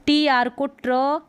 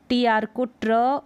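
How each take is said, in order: Both takes have the same delivery.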